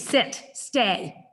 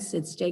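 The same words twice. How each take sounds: First: The command is said sharply and forcefully. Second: The command is said softly and calmly. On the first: "I wouldn't say it like that"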